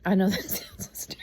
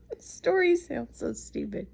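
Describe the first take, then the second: First: Breaking into a loud laugh mid-sentence. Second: Squeaky high-pitched giggling words; high laughing. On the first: Telling son's squirrel story, laughing out loud. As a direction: laugh through the words, louder. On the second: Laughing at her own silly squirrel story, high giggle. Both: Real, not acted.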